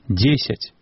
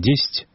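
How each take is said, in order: First: Every vowel is pronounced in full. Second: An unstressed vowel is dropped, shortening the word. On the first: The speaker calls it right. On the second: The speaker calls it wrong. "не «дзесць»"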